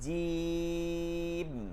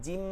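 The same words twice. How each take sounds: First: The first vowel is drawn out long. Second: The first vowel is short and clipped. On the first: The speaker calls it right. "জিতে টান দিতে হবে" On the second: The speaker calls it wrong. "অনেকে এভাবে পড়ছেন জিম, না জিম না"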